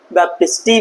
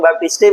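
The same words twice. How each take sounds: First: बैप्टिस्टी ending in a long "ee"; alternative name pronunciation. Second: बैप्टिस्टे ending in "ay"; alternative name pronunciation. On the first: Teacher showing how some people say the scientist's name, बैप्टिस्टी with an "ee" ending. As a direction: say बैप्टिस्टी with final "tee". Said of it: "कुछ लोग ... भी बोलते हैं". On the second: Teacher showing students the other way people say the name, बैप्टिस्टे with an "ay" ending. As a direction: say बैप्टिस्टे with final "tay". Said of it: "कुछ लोग बैप्टिस्टे बोलते हैं". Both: Shown as a demonstration.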